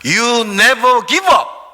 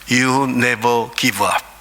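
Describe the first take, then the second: First: It is said somewhat louder than before. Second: It is said in a low, quiet voice.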